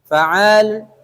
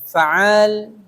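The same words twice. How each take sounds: Both takes have the same delivery.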